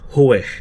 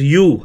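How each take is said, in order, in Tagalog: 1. Parang 'way' ang tunog ng Hue. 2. Parang 'you' ang tunog ng Hue. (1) "it should pronounce as Hue. Okay? Parang we" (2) "Dati, pinopronounce ko siya as U or Yue"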